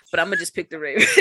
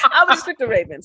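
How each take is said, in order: First: Said in the usual way. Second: Laughing through the words. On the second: Real, not acted. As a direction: say it while cracking up. Repeats pick while laughing.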